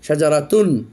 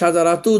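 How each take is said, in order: First: The word ends with an n sound. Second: The word ends without an n sound. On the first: The speaker calls it right. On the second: The speaker calls it wrong.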